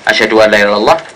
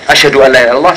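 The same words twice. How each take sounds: First: The phrase is said in a softer, lower voice. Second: The phrase is said in a louder, stronger voice. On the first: "Yang pertama dengan bacaan agak lebih rendah" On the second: "dan yang kedua dengan bacaan agak yang lebih keras"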